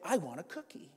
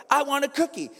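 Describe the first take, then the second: First: Much softer, hushed aside; quiet translation. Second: Put-on high whining child's demand; whiny kid. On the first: Acted. Parent decoding what the kid really means, quiet. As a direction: slip it in under your breath. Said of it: "what they're saying is". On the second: Kid begging parent in the grocery store, whiny. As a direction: whine for it like a kid. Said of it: "with the most whiny voice".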